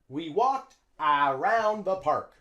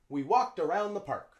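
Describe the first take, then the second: First: The first vowel of around is a full vowel. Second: The first vowel of around is a reduced schwa. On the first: The speaker calls it wrong. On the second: The speaker calls it right. "Native English speakers say around"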